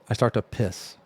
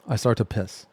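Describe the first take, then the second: No difference in how they are said.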